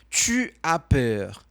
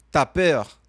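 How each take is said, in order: First: Tu and as are said as separate words. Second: Tu and as merge into one syllable, t'as.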